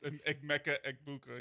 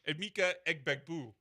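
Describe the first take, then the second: First: The surname is said as Egbuka. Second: The surname is said as Egbegbue.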